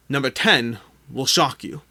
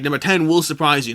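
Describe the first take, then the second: First: Slow, teasing clickbait hype; clickbait video narrator. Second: Said in the usual way. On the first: Shown as a demonstration. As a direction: dangle it like a clickbait headline. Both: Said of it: "clickbait aside".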